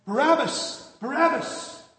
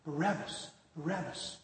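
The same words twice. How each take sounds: First: Raised, much higher mob yell; loud high cry from the crowd. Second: Hushed echo of a distant crowd; softly, as if overheard from a prison cell; muted, subdued chant; heard from cell. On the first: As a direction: shout it out like a baying crowd. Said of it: "And they're yelling". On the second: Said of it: "here you hear in your cell". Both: Acted.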